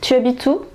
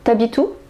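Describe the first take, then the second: First: The vowel of tu is pronounced in full. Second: The vowel of tu is dropped and linked.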